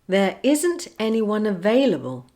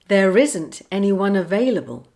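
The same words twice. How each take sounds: First: The words are kept apart with no R link. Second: An R sound joins the words smoothly together. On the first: "I'll say a phrase without linking" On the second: "then I'll say it with the linking"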